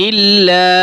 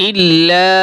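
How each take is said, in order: The two takes are said the same way.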